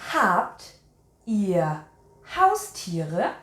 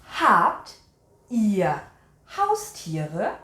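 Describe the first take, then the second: No difference in how they are said.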